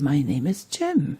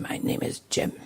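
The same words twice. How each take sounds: First: It is said in a warm, friendly tone. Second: It is said in an angry tone. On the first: The speaker welcomes the listener. The speaker calls it right. "or very friendly" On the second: The speaker is hostile to the listener. The speaker calls it wrong. "or very angry"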